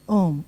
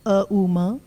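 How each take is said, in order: First: The sounds flow together into one unbroken syllable. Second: Three separate sounds are said with breaks between them. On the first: The speaker calls it right. "We say Om" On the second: The speaker calls it wrong. "nobody says A, U, Ma"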